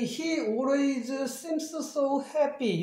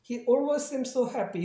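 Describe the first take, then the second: First: Each boundary consonant is pronounced separately. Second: The matching boundary consonants are merged together. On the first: The speaker calls it wrong. "이렇게 읽지, 읽지 못해요" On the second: The speaker calls it right. "이런 식으로 들려요"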